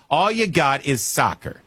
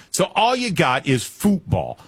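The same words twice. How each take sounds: First: Said in the usual way. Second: "football" said the European way, as in futbol, with drawn-out emphasis; light mock-European "football". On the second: Shown as a demonstration. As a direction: say "football" like a European fan would, slowly and higher.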